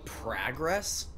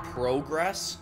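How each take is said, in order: First: "Progress" with a short open "ah" in the first syllable; Minnesota pronunciation. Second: "progress" with a long "oh" in the first syllable; alternative pronunciation. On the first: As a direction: say "Progress" as PRAH-gress, questioning. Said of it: "I say progress". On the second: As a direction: say "progress" as PROH-gress, questioning. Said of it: "oh, instead of, like". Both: Shown as a demonstration.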